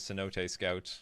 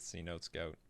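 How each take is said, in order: First: Cenote is said with three syllables, Spanish-style. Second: Cenote is said with two syllables, like see-note.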